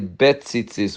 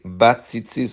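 First: The first syllable has a short reduced 'e'. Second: The first syllable has a full 'a' vowel. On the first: "which is with a shva" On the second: "according to the Kitzur"

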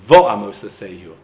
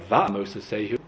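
First: The first vowel is a rounded 'o' sound. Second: The first vowel is an open 'a' sound. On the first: The speaker calls it right. "so too it should have said" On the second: The speaker calls it wrong. "not ... That's incorrect"

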